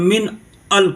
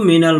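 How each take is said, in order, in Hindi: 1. दोनों शब्द अलग-अलग बोले जाते हैं। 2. दोनों शब्दों को एक साथ जोड़कर एक शब्द की तरह बोला जाता है। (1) "अलग कहेंगे तो मिन अल कहेंगे" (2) "एक में है तो मिनल माल कहेंगे"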